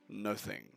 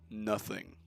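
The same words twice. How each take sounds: First: The word is said crisply, each syllable enunciated. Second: The same.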